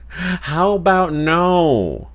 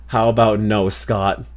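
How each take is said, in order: First: "How about no" stretched very slowly, pitched high; milk every word of "How about no", high and long; hammed-up, slow, high "no" that slides down at the end; drawn-out refusal. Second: Said in the usual way. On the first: Same refusal redone as exaggerated quote.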